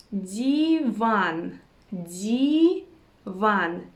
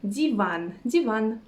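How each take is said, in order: First: Divan stretched long, dee, then vaan; syllable by syllable. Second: Said in the usual way. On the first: Shown as a demonstration. Teacher teaching the word for sofa, slow syllables. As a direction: draw out both syllables of divan.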